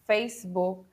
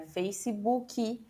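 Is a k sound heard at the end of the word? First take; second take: no; yes. First: The final k sound is not pronounced. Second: The final k sound is clearly pronounced. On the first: This is how it is said in Spanish. "em espanhol a gente não vai pronunciar a letra K no fim da palavra" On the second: This is how it is said in Portuguese. "em português a gente diria Facebook"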